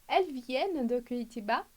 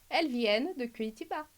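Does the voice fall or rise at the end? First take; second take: rise; fall. First: The pitch rises at the end. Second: The pitch falls at the end. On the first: It is a question. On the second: It is a statement.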